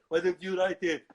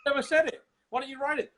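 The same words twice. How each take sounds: First: Loud, thick Austrian action star; aggrieved muscleman impression; Arnold Schwarzenegger. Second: Loud, high comic indignation; exasperated mock squawk; high-pitched protest. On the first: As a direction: throw it back in a heavy Austrian accent. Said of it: "then Schwarzenegger pops up". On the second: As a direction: fling it back, pitched way up. Acted argument with Schwarzenegger.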